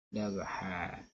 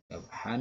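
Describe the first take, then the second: First: The word ends with a lengthened vowel, no n. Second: The word ends with a short vowel plus n.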